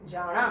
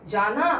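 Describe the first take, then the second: First: जाणा with a retroflex ण and a long final a; जाना said as जाणा, tongue curled back; Haryanvi retroflex na. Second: जाना with a plain dental n; जाना with a clean dental n; standard na sound. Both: Shown as a demonstration. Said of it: "हर तरीके से जो ये बोला जाने वाला ना है".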